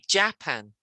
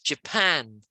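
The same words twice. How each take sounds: First: The stress is on the first syllable. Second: The stress is on the second syllable. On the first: This is how many other countries say it. The speaker calls it wrong. "a lot of countries say Japan, and we don't" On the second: This is how English speakers say it. The speaker calls it right. "We put the stress on the second syllable"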